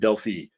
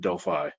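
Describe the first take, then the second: First: Delphi is said with the European pronunciation. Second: Delphi is said with the American pronunciation. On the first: It follows how the place is named locally. "that is the European pronunciation" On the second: It follows how it is said in the US. "I am from the U S, and so I pronounce it Delphi"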